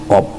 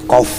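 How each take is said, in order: First: The word ends with a p sound. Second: The word ends with an f sound. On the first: The speaker calls it wrong. "nyong ngomongnya kop" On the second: The speaker calls it right. "nyong kan ngomong kof"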